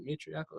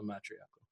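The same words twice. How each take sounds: First: "matriarchal" starting like "may"; long-a first syllable. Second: "matriarchal" starting like "mat"; short-a first syllable. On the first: Host checking how to say the word, "matriarchal" said MAY-triarchal. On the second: Host checking how to say the word, "matriarchal" said MAT-riarchal. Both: Shown as a demonstration. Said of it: "Is it matriarchal or matriarchal".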